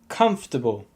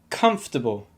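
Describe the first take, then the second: First: Only the first syllable is stressed. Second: The same.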